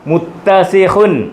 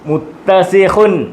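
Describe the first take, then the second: The two takes are said the same way.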